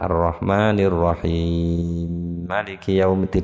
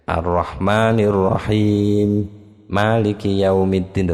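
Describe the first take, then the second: First: The final m merges into the next word. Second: Each word is pronounced separately without merging sounds. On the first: The speaker calls it wrong. "bukan ... tidak ada begitu" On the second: The speaker calls it right. "tetap dibaca begitu"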